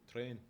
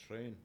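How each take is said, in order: The two takes are said the same way.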